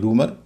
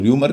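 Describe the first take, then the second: First: The first vowel is a plain 'oo' sound. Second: The first vowel is pronounced with a 'y' glide. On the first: The speaker calls it right. "होना चाहिए रूमर" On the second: The speaker calls it wrong. "रूमर में लोग र्यूमर कहते हैं"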